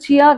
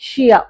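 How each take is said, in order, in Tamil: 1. இந்த வார்த்தை 'ch' ஒலியுடன் தொடங்குகிறது. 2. இந்த வார்த்தை 'sh' ஒலியுடன் தொடங்குகிறது. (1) "இது வந்து சியா கிடையாது" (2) "இந்த எஸ்ஹெச் சவுண்ட்ல தான் ப்ரொனவுன்ஸ் பண்ணோம்"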